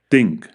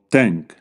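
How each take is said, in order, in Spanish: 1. La palabra empieza con un sonido th. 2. La palabra empieza con un sonido t. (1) "el sonido inglés th" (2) "o t"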